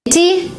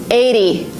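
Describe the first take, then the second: First: "Eighty" with a crisp t, high; T pronounced as T. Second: "eighty" said "aidy", falling. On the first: Teacher giving examples, clear-t "Eighty". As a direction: sound the t in "Eighty". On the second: Teacher giving examples, "aidy". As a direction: soften the t of "eighty" to a d. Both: Shown as a demonstration. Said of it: "you pronounce it as D".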